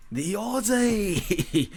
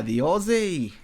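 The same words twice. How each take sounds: First: A slow, higher, drawn-out Aussie "Aussie"; playful Australian accent; mock Australian accent. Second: Said in the usual way. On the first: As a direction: stretch out "Aussie" like a mock Aussie bloke. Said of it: "The Aussie's gonna do a shoey". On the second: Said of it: "the Aussie (repeated in accent)".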